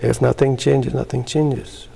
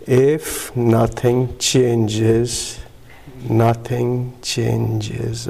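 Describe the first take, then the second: First: Said in the usual way. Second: Word by word, with long drawn-out vowels; very slow reading. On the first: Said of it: "Read it". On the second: Retold or imitated. Newcomer told to read the chip again, extremely slowly. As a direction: spell out each word slowly, pausing midway. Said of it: "Read it slowly".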